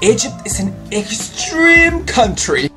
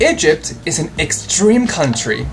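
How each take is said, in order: First: It is read with heavily exaggerated expression. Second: It is read with some moderate expression. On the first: "exaggerate the sentence by acting really exaggeratedly" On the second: "add some emotion inside this sentence"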